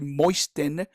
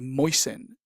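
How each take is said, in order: First: The T sound in the middle is pronounced. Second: The T sound in the middle is silent. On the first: The speaker calls it wrong. "the T here is silent. So we don't say moisten" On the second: The speaker calls it right. "we say moisten"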